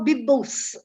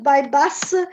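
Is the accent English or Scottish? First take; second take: Scottish; English. First: It is said with a Scottish accent. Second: It is said with a standard English accent. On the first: "Scottish people have an incredible English. Uh, they they can say" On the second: "instead of"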